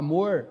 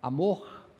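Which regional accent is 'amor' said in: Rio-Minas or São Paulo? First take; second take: São Paulo; Rio-Minas. First: It is said with a São Paulo accent. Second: It is said with a Rio or Minas accent. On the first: "A gente fala amor" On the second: "Rio de Janeiro, mesmo Minas Gerais, onde eles falam amor"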